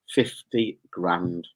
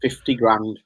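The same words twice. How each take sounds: First: FIFTY GRAND drawn right out, low; slow emphatic repeat. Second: Said in the usual way. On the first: Real, not acted. Repeats prize slowly for emphasis.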